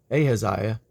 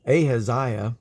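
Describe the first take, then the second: No difference in how they are said.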